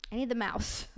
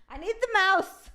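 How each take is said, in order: First: Said in the usual way. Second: High, laughing whine; high laughing plea. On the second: Real, not acted. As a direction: laugh through it, a little desperate. Laughs while hunting for the mouse.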